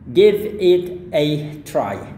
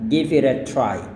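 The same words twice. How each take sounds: First: The phrase is said at a normal pace. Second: The phrase is said quickly and run together.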